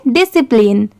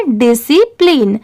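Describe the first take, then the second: First: discipline quickly, as one word; at speed. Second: Syllable by syllable. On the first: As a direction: run "di-si-plin" together in discipline. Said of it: "इसे speed में पढ़ेंगे". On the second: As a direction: stretch discipline out part by part. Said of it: "इन तीनों को मिला देंगे". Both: Shown as a demonstration.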